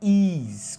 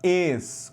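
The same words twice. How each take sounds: First: The vowel is a tense 'ee' sound. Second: The vowel is a closed 'eh' sound. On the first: The speaker calls it wrong. "não é is com i" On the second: The speaker calls it right. "com esse som aqui, essa pronúncia do, do e fechado"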